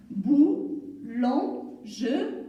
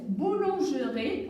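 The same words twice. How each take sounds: First: "boulangerie" very slowly, split into four syllables. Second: Said in the usual way. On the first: Shown as a demonstration. Teacher splitting a word for learners, "boulangerie" syllable by syllable. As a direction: stretch and separate each syllable of "boulangerie". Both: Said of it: "On l'a découpé en syllabes".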